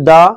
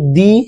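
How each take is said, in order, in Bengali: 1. স্বরধ্বনিটি 'thuh'-তে 'uh'-র মতো উচ্চারিত হয়। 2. স্বরধ্বনিটি 'thee'-তে 'ee'-র মতো উচ্চারিত হয়। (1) "যদি কনসোনেন্ট হয় তাহলে দা উচ্চারণ হবে" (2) "যদি ভাওয়েল হয় তাহলে দি উচ্চারণ হবে"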